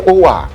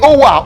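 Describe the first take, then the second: First: The word is said softly and without force. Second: The word is shouted loudly and forcefully. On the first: The driver does not notice the request to stop. The speaker calls it wrong. "If you say, Owa, they won't even hear you" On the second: The driver hears and stops at the bus stop. The speaker calls it right. "If you don't say it loud, forget it"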